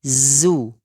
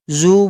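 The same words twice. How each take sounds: First: Zu slow, lips round only on u and the z back to a thin jaw; correct zu. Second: Zu said with rounded, heavy lips held through the z; wrong zu. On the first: Teacher showing students the right zu, slow. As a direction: unround quickly into the thin z. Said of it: "tapi zu". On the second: Teacher showing students the wrong zu, rounded. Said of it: "zu bukan". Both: Shown as a demonstration.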